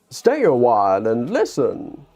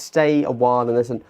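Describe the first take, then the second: First: It is said in a Deckard Cain voice. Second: It is said in his normal voice.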